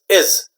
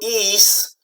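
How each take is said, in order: First: The vowel is short, like ih. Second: The vowel is long, like ee. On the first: The speaker calls it right. "these I's are short sounds" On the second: The speaker calls it wrong. "it's not ease"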